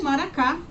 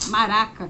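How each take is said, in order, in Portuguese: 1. O acento cai na sílaba final. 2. O acento cai na sílaba do meio. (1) "eu não falei maracá" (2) "maraca que se fala"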